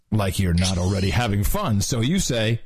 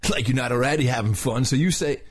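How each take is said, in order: First: Said in the usual way. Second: Lightly voiced surfer dude; mild surfer-dude delivery. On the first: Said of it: "should I do both voices?". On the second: Shown as a demonstration. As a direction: narrate with a hint of surfer. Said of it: "the whole thing in a surfer's voice".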